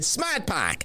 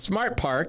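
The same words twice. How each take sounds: First: It is said in a Boston accent. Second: It is said in a standard American accent. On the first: "we would say Smart Park" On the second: "which y'all would say"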